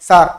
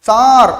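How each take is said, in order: First: The vowel is held only briefly. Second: The vowel is drawn out long. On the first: "ஒரு குட்டியா குறுகிய ஒரு ஒலியை ஏற்படுத்துது" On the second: "ஒரு நீண்ட நெடிய ஒலியை ஏற்படுத்து"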